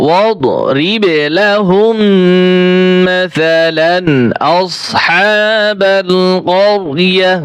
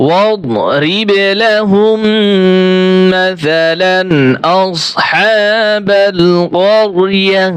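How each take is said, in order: Both takes have the same delivery.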